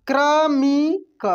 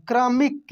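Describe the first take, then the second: First: क्रमिक drawn out very slowly, sound by sound; slow spelling-out. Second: Said in the usual way. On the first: Shown as a demonstration. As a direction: stretch क्रमिक for learners. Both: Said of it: "ठीक है?".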